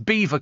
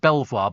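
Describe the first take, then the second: First: The name sounds like the word 'beaver'. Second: The name is said the way it is spelled. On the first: The speaker calls it right. "it's Beaver Castle, says Conrad" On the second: The speaker calls it wrong. "I knew it wasn't pronounced Belvoir, but I've always pronounced it like that"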